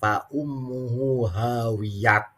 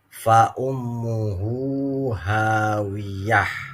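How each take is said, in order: First: The last word ends in a t sound. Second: The last word ends in a soft h sound. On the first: The reader is reading from a Latin transliteration. The speaker calls it wrong. "Kalau diberhentikan, jangan" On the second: The reader stops at the end of the verse. The speaker calls it right. "berhenti lebih utama"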